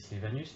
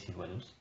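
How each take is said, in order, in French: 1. On le prononce comme la plupart des gens le prononcent. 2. On le prononce avec une prononciation du latin classique. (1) "que les autres gens vont prononcer Silvanus" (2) "qu'en latin on a appris à prononcer Silvanus"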